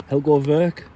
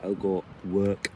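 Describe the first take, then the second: First: "Werk" said with a German V, like "Verk"; German pronunciation. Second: "Werk" said with a plain English W, like "work". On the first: Camper names his German axe, "Werk" said as "Verk". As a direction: say "Helgo Werk" with the W of "Werk" as a V. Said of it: "it's German, so you gotta say". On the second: Camper shows the spelling, "Werk" said slowly with an English W. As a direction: say "Helgo Werk" slowly, with "Werk" starting on a W sound. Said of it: "spelt with a W". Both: Shown as a demonstration.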